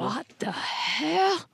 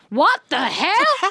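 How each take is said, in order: First: It is said in a whisper. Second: It is said aloud, not whispered.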